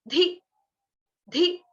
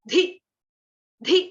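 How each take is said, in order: No difference in how they are said.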